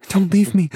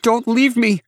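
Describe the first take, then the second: First: High, loud plea, shorter and less forceful; pleading. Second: Very high, loud desperate shout; shouted plea. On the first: Rescued woman begging her rescuer to stay, high pleading. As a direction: beg them in a high, urgent voice. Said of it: "Olivia whispered with pleading eyes". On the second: Rescued woman demanding her rescuer stay, vehement high shout. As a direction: shout it vehemently, pitched right up. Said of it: "Olivia shouted". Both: A narrator's reading.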